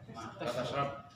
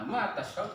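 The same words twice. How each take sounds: First: It is said with a flat statement intonation. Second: It is said with a questioning intonation. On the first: It says the listener does not drink. "Tapi kalau kamu tidak minum ya bisa ma tashrab" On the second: It asks what the listener drinks. "Kalau intonasi ngomongnya bertanya berarti ma tashrab"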